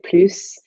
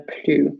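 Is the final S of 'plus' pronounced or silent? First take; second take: pronounced; silent. First: The final S is pronounced. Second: The final S is silent. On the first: It means more, as a positive. "if you pronounce the S and say plus" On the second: It means no longer, as a negative. "this S is silent"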